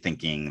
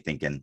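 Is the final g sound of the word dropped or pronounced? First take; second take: pronounced; dropped. First: The ending is said with a full 'ing' sound. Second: The ending drops the g, sounding like 'in'. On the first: "they don't say thinking" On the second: "they say thinking"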